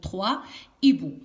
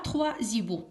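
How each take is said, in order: First: No z sound joins trois and hiboux. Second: A z sound links trois to hiboux. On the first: The speaker calls it right. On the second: The speaker calls it wrong.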